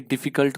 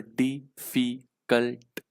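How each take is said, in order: First: Said in the usual way. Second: डिफिकल्ट slowly split into three syllables, di-fi-kalt. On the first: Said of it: "डिफिकल्ट को मुझे बोलना है". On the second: Shown as a demonstration. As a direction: break डिफिकल्ट into three separate slow beats. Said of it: "तीन syllable में". (डिफिकल्ट को तीन syllable में तोड़कर, धीरे-धीरे)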